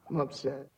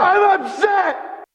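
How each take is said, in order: First: It is said quietly. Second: It is said loudly.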